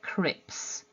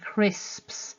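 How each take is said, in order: First: The s sound before the p is dropped. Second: The s sound before the p is kept. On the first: "that first uh, fricative s to be missed" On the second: "instead of saying crisps"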